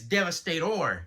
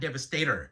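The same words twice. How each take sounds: First: The name ends with an 'or' sound. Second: The name ends with an 'er' sound. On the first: The speaker calls it right. "It's Devastator" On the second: The speaker calls it wrong. "not Devastator"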